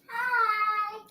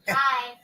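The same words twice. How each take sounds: First: It is said in a put-on voice. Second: It is said in a natural voice.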